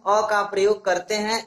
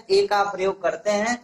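First: अ said as a short "uh"; अ as unstressed "uh"; weak article A. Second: ए said as a long "ay"; ए with a long "ay" vowel; letter-name A. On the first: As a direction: say अ with the neutral vowel, not "ay". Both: Shown as a demonstration. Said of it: "ए को हम अ भी पढ़ते हैं".

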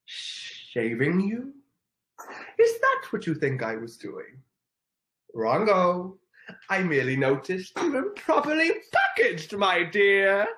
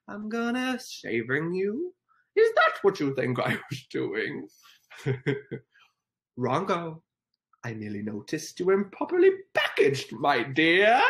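First: Milk the Grinch's smug scorn; hammed-up Grinch, louder and higher; Grinch impression. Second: A light, slowed Grinch sneer; lightly voiced Grinch, teasing; Grinch impression. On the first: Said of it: "Oh, I'll do it again". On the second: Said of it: "The Grinch impression?".

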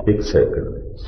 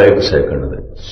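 First: "ਇੱਕ second ਦੇ ਵਿੱਚ" breathed out in a soft whisper; whispered echo. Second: Said in the usual way. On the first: Real, not acted. Preacher whispers "ਇੱਕ second ਦੇ ਵਿੱਚ" back to the congregation.

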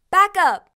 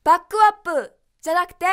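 First: バックアップ with the k joined straight onto the a; linked English backup. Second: バックアップ with a ku vowel, ba-ku-appu; wrong katakana way. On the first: Teacher modeling the correct English for students. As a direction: link the k of バックアップ into the vowel. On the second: Teacher showing learners the wrong reading. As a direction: say バックアップ Japanese-style with the ku vowel. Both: Shown as a demonstration.

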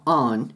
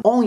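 First: Second "on" opened toward "ah"; A-leaning vowel. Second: First "on" with a Japanese O; O-like vowel. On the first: Teacher showing the cleaner vowel, leaning to A. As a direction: shift the vowel of "on" to "ahn". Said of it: "ちょっとあーよりで音をずらして". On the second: Teacher showing the less preferred vowel, O-like. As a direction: round "on" toward "oh". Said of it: "onよりもon". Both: Shown as a demonstration.

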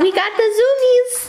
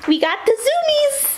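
First: Excited squeal. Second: Much higher, thrilled sing-song; excited squeal. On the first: Excited about dog's zoomies. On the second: Owner cheering her dog's zoomies, high thrilled squeal. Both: Real, not acted.

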